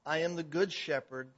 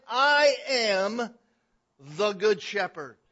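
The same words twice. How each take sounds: First: Said in the usual way. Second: "I am" stretched slow, loud and high, then "the good shepherd"; most emphatic declaration. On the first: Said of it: "where he says". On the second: Shown as a demonstration. Preacher voicing Jesus' claim, "I am" hugely emphatic and drawn out. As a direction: punch "I am" at full voice, pause, land "the good shepherd" loudly. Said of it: "with the most emphatic way that I can say it".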